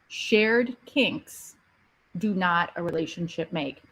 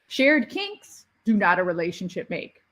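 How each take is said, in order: First: It is said at normal volume. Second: It is said louder.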